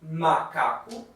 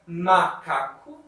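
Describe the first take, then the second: Both takes have the same delivery.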